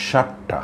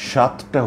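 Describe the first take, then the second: First: সাতটা blurred, higher, consonants run together; slurred mispronunciation. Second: সাতটা said clearly, তটা full; careful demo word. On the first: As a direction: blur সাতটা as a careless slip. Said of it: "এতে করে উচ্চারণ ভুল হয়ে যায়". (সাতটা জড়িয়ে ভুল উচ্চারণ) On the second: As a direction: give সাতটা both consonants. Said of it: "আবার". (সাতটা স্পষ্ট করে বলা) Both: Shown as a demonstration.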